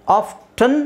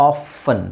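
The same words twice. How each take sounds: First: "ಆಫ್ಟನ್" as "off-tun"; sounded T. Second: "ಆಫನ್" as "off-un", no T; silent T. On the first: Teacher giving one option for often, sounded T. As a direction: pronounce the T in "ಆಫ್ಟನ್". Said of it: "ಆಫ್ಟನ್ ಟಿ ಹಾಕ್ಕೊಂಡು ಹೇಳ್ಬೋದು". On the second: Teacher giving the other option for often, silent T. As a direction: skip from F to vowel in "ಆಫನ್". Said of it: "ಟಿ ಇಲ್ದೇನೂ ಹೇಳ್ಬೋದು". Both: Shown as a demonstration.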